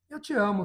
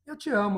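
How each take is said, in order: First: It is said in a dismissive, scornful tone. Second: The same.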